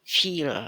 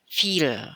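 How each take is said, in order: No difference in how they are said.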